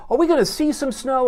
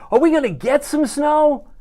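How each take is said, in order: First: See leaned on, pitch up on "see"; stress on see. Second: "get" set against "see", higher; stress on get. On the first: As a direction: lean on the verb "see". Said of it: "You like how I use the verb there". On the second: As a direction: punch the verb "get" as the contrast. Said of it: "see versus get?". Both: Shown as a demonstration.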